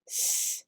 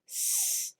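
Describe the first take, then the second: The two takes are said the same way.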